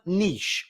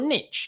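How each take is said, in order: First: It is said with a British pronunciation. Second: It is said with an American pronunciation.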